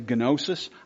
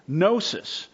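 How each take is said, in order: First: The word is said with a modern Greek pronunciation. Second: The word is said with a plain English pronunciation.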